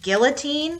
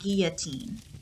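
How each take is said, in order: First: The double L is said as an L sound. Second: The double L is said as a Y sound. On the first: This is the common everyday pronunciation. "Lots of people pronounce it" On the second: This follows the French pronunciation. "when you put two L's together, it makes a y sound. It's pronounced"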